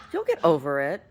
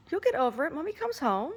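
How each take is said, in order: First: Said in the usual way. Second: Much higher sing-song reassurance. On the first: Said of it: "talking to dog". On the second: Real, not acted. Owner reassuring her sad dog, high baby talk.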